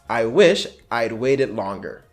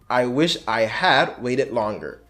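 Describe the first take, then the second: First: The words 'I had' are contracted to 'I'd'. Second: The words 'I had' are said in full.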